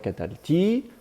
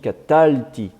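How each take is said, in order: First: The stress falls on the last syllable. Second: The stress falls before the last syllable. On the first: The speaker calls it wrong. "on ne dit pas catalti" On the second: The speaker calls it right. "la postformante de type consonne-voyelle ne prend pas l'accent. Donc on dit catalti"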